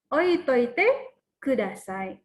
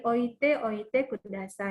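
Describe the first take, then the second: First: The repeated verb is contracted into one shorter word. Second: The repeated verb is said in full, uncontracted. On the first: This is the casual spoken form. "dalam percakapan biasanya teokemas seringkali diucapkan menjadi tokimas" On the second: This is the original full form. "berasal dari oite oite kudasai"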